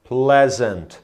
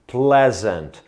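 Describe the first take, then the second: No difference in how they are said.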